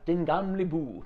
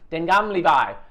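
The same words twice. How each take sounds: First: The name is pronounced with Danish-like sounds. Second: The name is pronounced with English-like sounds. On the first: The speaker calls it right. "Now it's Den Gamle By" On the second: The speaker calls it wrong. "The first time I did it, I was Den Gamle By, and everyone just laughed at me"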